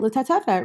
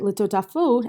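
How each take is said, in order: First: The word is said with e vowels, ending -fet. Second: The word is said with o vowels, ending -fot. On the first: It follows the bare written letters. "they might read it litatefet" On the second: It follows the traditional vowels. "we would pronounce it litotafot as part of Kriyat Shema"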